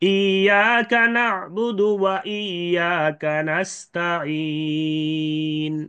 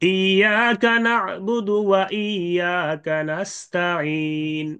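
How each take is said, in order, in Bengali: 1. শেষের লম্বা স্বরটি দুই মাত্রা টানা হয়। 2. শেষের লম্বা স্বরটি এক মাত্রা টানা হয়। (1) "দুই আলিফের সাথে ইসমাম" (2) "এক আলিফের সাথে ইসমাম"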